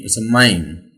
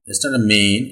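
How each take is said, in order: First: Mine gliding from ah to ee; the right mine; diphthong mine. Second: Main said with a plain ay vowel; main, not mine; wrong main. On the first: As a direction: say mine with an ah-to-ee glide. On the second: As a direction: say main with a flat ay. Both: Shown as a demonstration. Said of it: "It's not a main, it's a mine".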